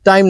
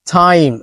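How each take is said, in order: First: টাইম with no air on the first sound, the wrong way; unaspirated t. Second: টাইম said with a breathy puff on the first sound; aspirated t. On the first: Teacher shows the wrong unaspirated টাইম. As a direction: say টাইম flat, no puff on the start. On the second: Teacher gives the right aspirated টাইম. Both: Shown as a demonstration. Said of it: "টাইম না কিন্তু".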